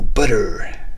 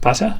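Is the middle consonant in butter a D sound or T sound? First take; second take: D sound; T sound. First: The middle consonant is a soft D sound. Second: The middle consonant is a crisp T sound. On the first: "He said it with D's" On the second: "In English, you say it with T's"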